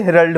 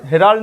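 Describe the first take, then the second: First: हेरल्ड with a short, quick schwa, HEH-ruld; correct short pronunciation. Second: हेराल्ड with a long stretched aa in the middle; wrong long-a pronunciation. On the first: Teacher giving students the correct हेरल्ड. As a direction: say हेरल्ड with the middle vowel clipped short. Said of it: "हेराल्ड नहीं होता". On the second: Teacher showing students the wrong way to say हेराल्ड. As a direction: say हेराल्ड as heh-RAAL-d, the wrong way. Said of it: "आ का pronunciation नहीं होता है". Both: Shown as a demonstration.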